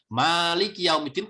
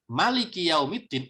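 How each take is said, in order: First: The first vowel of Maliki is long. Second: The first vowel of Maliki is short. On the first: It means the owner of the Day of Judgment. "panjang manya itu artinya pemilik" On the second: It means the king of the Day of Judgment. "dipanjang pendek ... itu artinya raja"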